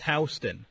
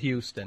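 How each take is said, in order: First: It is not said like the Texas city. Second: It is said like the Texas city. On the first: This is how the New York street is named. The speaker calls it right. "it's actually pronounced Houston" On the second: This is how the city in Texas is named. The speaker calls it wrong. "not Houston"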